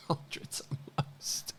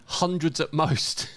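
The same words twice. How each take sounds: First: Breathless, wheezing laugh through the words; helpless laughter. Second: Said in the usual way. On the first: Real, not acted. Cracking up at a wrong online claim, breathless laughing. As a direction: repeat it almost voiceless with laughter, slowly.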